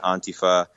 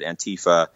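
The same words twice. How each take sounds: First: It is said the way Europeans say it. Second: It is said the way Americans say it.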